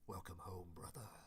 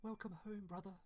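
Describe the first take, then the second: First: It is said in a gloomy guardian voice. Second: It is said in a cute little-sister voice.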